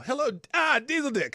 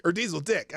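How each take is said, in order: First: Diesel punched high and loud; greeting stressed wrong. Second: Diesel Dick with no punch on Diesel; corrected stress. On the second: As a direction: calmer retake of Diesel Dick. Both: Real, not acted. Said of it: "I kinda emphasized the wrong part there".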